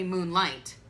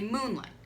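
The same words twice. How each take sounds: First: The stress is on the second syllable. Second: The stress is on the first syllable. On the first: The speaker calls it wrong. "We don't say moonlight" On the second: The speaker calls it right. "we say moonlight. So come off of the light"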